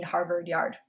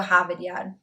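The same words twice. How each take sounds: First: Said in the usual way. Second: Harvard Yard r-less, "Hahvad Yahd"; Boston accent. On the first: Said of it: "which means to park the car". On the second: Shown as a demonstration. Vlogger repeating the place name Boston-style, Boston accent. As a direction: say it like a Bostonian, dropping every r. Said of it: "a guide on how to speak Boston".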